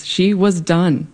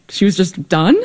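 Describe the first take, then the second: First: Slow, falling on done, settled; flat final statement. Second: Rising on done, disbelieving; incredulous question. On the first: Real, not acted. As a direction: let it land slowly as a fact. Settling that mother really quit. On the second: Retold or imitated. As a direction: ask it like you can't believe it. Disbelief at mother quitting cooking.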